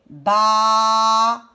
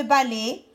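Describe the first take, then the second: First: "balai" loud and slow, long "ba", long "lai"; syllable-by-syllable "balai"; split into syllables. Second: Said in the usual way. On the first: Shown as a demonstration. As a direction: stretch both halves of "balai". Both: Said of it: "Je prends la première syllabe de balai".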